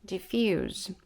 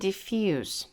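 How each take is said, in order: First: The word ends with a buzzing z sound. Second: The word ends with a hissing s sound. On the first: It is used as a verb. "A gente vai falar diffuse quando é um verbo" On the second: It is used as an adjective. "Já quando a gente está falando sobre o adjetivo"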